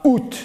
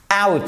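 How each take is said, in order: First: "out" said "oot", a pure ou; wrong French-style vowel. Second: "out" said with a wide ow; correct diphthong. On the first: Teacher shows the mistake, "out" said "oot". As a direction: misread "out" as French "oute". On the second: Teacher models the English word, "out" with ow diphthong. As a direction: say "out" as "owt", glide and final t. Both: Shown as a demonstration. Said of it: "C'est pas out".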